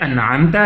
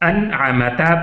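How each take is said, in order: First: The 'm' goes straight into the 't'. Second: A vowel sounds between the 'm' and 't'. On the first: The speaker calls it right. "जैसा कि अनआमता है" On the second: The speaker calls it wrong. "इसकी जगह अगर हम अनआमता पढ़ लें"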